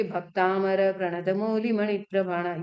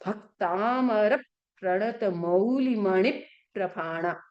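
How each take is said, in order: First: भक्तामर said with no pressure on भ, evenly; wrong pronunciation. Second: Slow, pressing on भ in भक्तामर; correct pronunciation. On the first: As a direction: recite भक्तामर प्रणत मौलिमणि प्रभाणा flatly, unstressed. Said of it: "ये क्या आपका शुद्ध है या अशुद्ध उच्चारण?". ("भक्तामर" बिना भ पर ज़ोर दिए, सपाट) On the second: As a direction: slowly lean on भ of भक्तामर and stress मौलिमणि. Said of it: "जब मैं भ पे प्रेशर दूंगी". (धीरे-धीरे, "भक्तामर" में भ पर ज़ोर देकर) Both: Shown as a demonstration.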